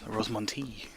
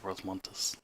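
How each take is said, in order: First: The name ends without an s sound. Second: The name ends with an s sound. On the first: The speaker calls it right. "It's Rosmonti or something" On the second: The speaker calls it wrong. "It's not like Rosmontis"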